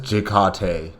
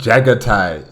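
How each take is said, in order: First: The name begins with a short 'Jik' sound. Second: The name begins with a 'Jag' sound. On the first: "Rogul Dawn also says Jikate" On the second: "Isn't it Jagatai"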